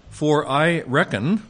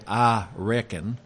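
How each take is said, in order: First: "For I reckon" drawn out slowly, higher and louder, with mock weight; sarcastic reading. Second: "I reckon" said slowly in a light Texan drawl; a quick Texan "I reckon" with a lifting end; Texan accent. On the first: Teacher reading Paul's words to the class, slow and mockingly sarcastic. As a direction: lean on "reckon" with a sly, sarcastic rise. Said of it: "a little bit of apostolic sarcasm". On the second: Teacher likening Paul's phrase to Texan speech, light Texan accent. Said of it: "as in Texan you'd say". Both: Shown as a demonstration.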